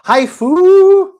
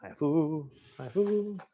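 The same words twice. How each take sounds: First: Very high, loud, with a long held "fu"; playful cry. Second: Much quieter repeats, like a fading echo; soft echo. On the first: Host announcing the next game, playful high shout. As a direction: whoop the title out, stretching the last vowel. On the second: Host echoing the game title, playfully soft. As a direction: echo the title softly, rising in pitch. Echoes his own shouted title. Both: Pretend.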